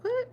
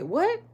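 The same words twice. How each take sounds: First: "What?" shot up very high in disbelief; stunned high "What?"; shocked what. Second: Sudden high, loud shocked "What?"; loud incredulous "What?". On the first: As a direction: squeal "What?" like you can't believe your ears. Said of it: "I was like". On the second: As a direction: snap out "What?" in disbelief, pitched way up. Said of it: "Like that". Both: Retold or imitated.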